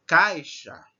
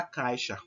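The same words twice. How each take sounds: First: "Caixa" said louder, strong A and weaker I; stress on the A. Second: Said in the usual way. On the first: Shown as a demonstration. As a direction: lean on the A in "Caixa", let the I glide. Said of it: "o A é mais forte que o I".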